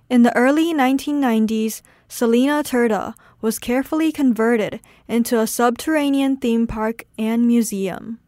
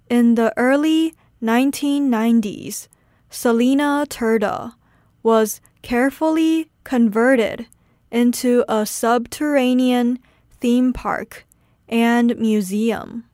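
First: It is said at normal speed. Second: It is said slowly.

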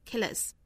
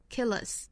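The two takes are said the same way.

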